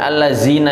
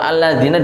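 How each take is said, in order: First: The middle consonant is a buzzing 'z' sound. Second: The middle consonant is a soft 'th' sound. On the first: The speaker calls it wrong. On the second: The speaker calls it right.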